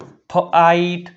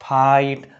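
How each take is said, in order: First: ફ આઈટ slowly split in two; teacher breaking ફ આઈટ into parts; sounded out. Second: Said in the usual way. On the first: Shown as a demonstration. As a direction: say ફ, then a drawn-out આઈટ. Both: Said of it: "લખાય અથવા વંચાય છે".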